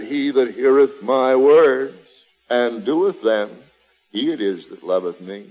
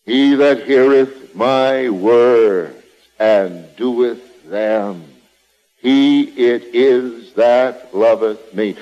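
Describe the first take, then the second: First: Solemn, low reading of the verse; scripture reading. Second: Drawn-out, weighty reading of the verse; slow scripture reading. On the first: Preacher intoning Jesus' words to the congregation, solemn and low. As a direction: read it as holy writ, measured. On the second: Preacher repeating the verse to drive it home, slow and weighty. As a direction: let each word of the verse land, slowly. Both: Acted.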